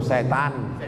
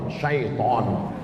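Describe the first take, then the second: First: It begins with 'se', in the local form. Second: It begins with 'shai', in the Arabic form. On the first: "Apa itu? Setan" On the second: "Syaiton. Cuman orang kita payah bilang syaiton"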